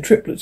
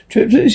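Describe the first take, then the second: First: Said in the usual way. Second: Higher-pitched exclamation; exclaiming. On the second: A narrator's reading. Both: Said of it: "she said, she exclaiming".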